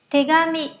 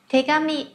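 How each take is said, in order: Both takes have the same delivery.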